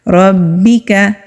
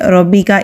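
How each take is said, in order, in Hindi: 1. 'b' को दोहरे हर्फ़ की तरह मज़बूती से रोका जाता है। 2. 'b' को एक ही हर्फ़ की तरह नरमी से बोला जाता है। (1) "रॉ को बा के साथ मजबूती से मिलाना है क्योंकि तशदीद है" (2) "इसको नरमी से रब्बी का इस तरह नहीं पढ़ना"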